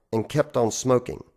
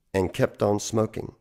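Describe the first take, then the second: No difference in how they are said.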